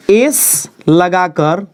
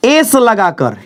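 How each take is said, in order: First: Slow drawn-out emphasis. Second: Said in the usual way. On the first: Shown as a demonstration. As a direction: stretch एस लगाकर out very slowly, ending on a rise. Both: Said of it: "केवल".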